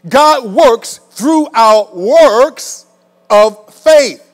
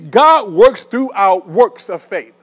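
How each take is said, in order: First: The sentence is spoken slowly. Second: The sentence is spoken quickly. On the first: The speaker calls it right. "Let me say that again" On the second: The speaker calls it wrong. "I said it too fast"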